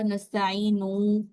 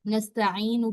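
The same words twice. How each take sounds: First: The final vowel is stretched long. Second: The final vowel is kept short. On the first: The speaker calls it wrong. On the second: The speaker calls it right.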